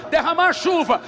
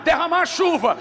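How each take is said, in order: Both takes have the same delivery.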